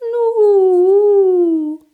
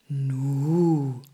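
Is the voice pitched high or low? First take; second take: high; low. First: The voice is pitched high and light. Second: The voice is pitched low and deep. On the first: "aber auch hoch" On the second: "Sie kann tief klingen"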